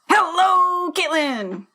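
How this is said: It is said in a football-style cheer voice.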